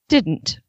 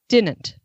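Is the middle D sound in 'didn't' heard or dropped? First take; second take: heard; dropped. First: The middle D sound is pronounced. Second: The middle D sound is dropped. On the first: "it the way you normally say it" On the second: "the way I say it"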